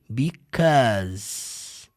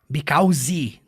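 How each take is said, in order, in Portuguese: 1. A palavra termina com som de Z. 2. A palavra termina com som de vogal. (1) "Because termina com som do Z" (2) "não termina com som de E nem com som de I"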